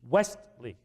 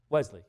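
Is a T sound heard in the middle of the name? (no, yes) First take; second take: yes; no. First: A clear T sound comes before the L. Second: No T sound comes before the L. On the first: "I've got to stop and make an emphasis on the T" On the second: "You could easily hear the Wesley"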